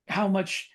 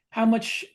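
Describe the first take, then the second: No difference in how they are said.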